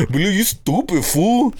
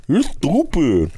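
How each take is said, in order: First: Higher, slow put-on voice; a hint of the brother insulting; imitating brother. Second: Higher, very slow, goofy insult; goofier brother voice. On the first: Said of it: "talking to my brother". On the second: Retold or imitated. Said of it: "He sounds goofier".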